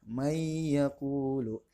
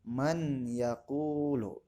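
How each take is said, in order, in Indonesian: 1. Bunyi n melebur ke dalam bunyi y yang mengikutinya. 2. Bunyi n dilafalkan jelas sebelum y. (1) "maka pembacaannya may yaqulu" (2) "jangan dibaca man yaqulu"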